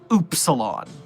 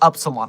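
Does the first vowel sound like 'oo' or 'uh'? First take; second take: oo; uh. First: The first vowel is a long 'oo' sound. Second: The first vowel is a short 'uh' sound. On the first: The speaker calls it right. "schooled by the Containment Hazard Assessment team over the pronunciation of Oopsilon" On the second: The speaker calls it wrong. "I can't believe it's not Upsilon"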